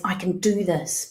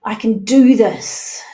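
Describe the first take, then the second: First: Said in the usual way. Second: Louder, slower, emphatic; loud affirmation. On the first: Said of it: "Next one is". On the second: Shown as a demonstration. Coach modelling the affirmation for the group, loud and firm. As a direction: say it like you mean it. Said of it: "say either to yourself or out loud".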